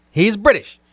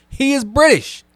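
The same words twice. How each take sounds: First: He IS British, is punched and held; stress on is. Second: He is BRITISH, British pitched high and hit hard; stress on British. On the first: Repeating the point to the chat, is stressed firmly. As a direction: insist on is, as if someone doubted it. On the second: To the chat about Superman's actor, British stressed high. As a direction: land the weight on British, the word that proves the point. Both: Real, not acted.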